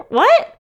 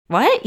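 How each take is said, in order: First: "What?" shot up very high and loud, rising squeal; mock disbelief. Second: A quick, higher startled "What?" rising at the end; mock surprise. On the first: Reacting to clients who still listen, squealing mock disbelief. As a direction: play total comic disbelief. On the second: Reacting to clients who cite old episodes, mock surprised. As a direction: act caught off guard by the news. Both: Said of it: "my reaction is always like".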